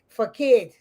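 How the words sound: The word is pronounced the English way. "the Englishman will, will pronounce it the first way I pronounce it"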